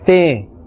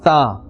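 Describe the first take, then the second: First: The letter name ends in an 'eh' vowel. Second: The letter name ends in an 'ah' vowel. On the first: The speaker calls it wrong. "the instead of tha" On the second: The speaker calls it right. "instead of tha"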